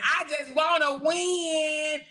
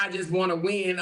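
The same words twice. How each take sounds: First: Mocking drawn-out read. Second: Said in the usual way. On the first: Rereading a rival's username aloud, mocking it slowly. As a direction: sneer the quote back at her slowly. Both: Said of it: "Oh, look at the name".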